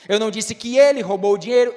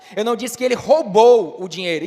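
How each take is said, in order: First: The stress falls on the word ele. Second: The stress falls on the word roubou. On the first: Someone else stole it. "então quem foi que roubou?" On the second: He did something else with the money. "então o que foi que ele fez com o dinheiro?"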